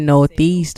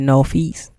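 First: The word is said in a standard way. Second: The word is said in a local DC way. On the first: "we don't say Northeast" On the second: "We say Northeast"

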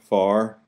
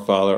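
First: The middle 'th' sound is dropped entirely. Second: The middle 'th' sound is clearly pronounced. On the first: "It's broer, more, far" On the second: "we don't say ... or father"

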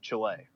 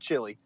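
First: Chile is said with a Spanish-like pronunciation. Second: Chile is said with an English-like pronunciation. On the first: The speaker calls it right. "don't say it like that, it's Chile" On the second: The speaker calls it wrong. "because I said Chile, and I've had several people correct me"

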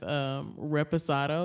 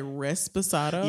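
First: The word has no S sound after re. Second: The word has an S sound after re. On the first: The speaker calls it right. "there's no extra S" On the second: The speaker calls it wrong. "a lot of people say resposado"

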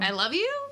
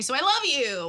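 First: The voice rises at the end like a question. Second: The voice falls at the end like a statement.

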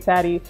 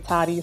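First: The first vowel is like in 'cat'. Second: The first vowel is like in 'father'.

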